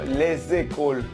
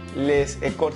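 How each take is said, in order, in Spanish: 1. Una z de enlace une les con écoles. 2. Les y écoles se dicen sin una z de enlace. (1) "sino les écoles. Eso es algo llamado liaison" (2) "No puedes decir"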